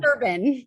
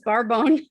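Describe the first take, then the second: First: It sounds like the whiskey word 'bourbon'. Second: It sounds like 'bar-bone', ending in 'bone'. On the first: The speaker calls it wrong. "It's not bourbon. Don't say that" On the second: The speaker calls it right. "Geranium barbone is how it's pronounced"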